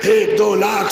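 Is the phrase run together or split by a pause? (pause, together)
together. The words are run together without a pause. The speaker calls it wrong. "Sir ऐसे नहीं पढ़ा जाएगा"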